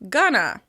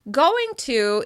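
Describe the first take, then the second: First: The words blend into one short form. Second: Both words are said fully and separately.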